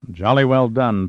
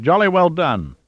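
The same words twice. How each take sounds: First: Dry mimicry of another's praise, only mildly raised; mimicking. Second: High-pitched, delighted praise with a falling finish; delighted cry. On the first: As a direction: echo the praise back, gently mocking. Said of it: "Pitt mimicked". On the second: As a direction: cheer it in sheer delight. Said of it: "Plunkett cried in delight". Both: A narrator's reading.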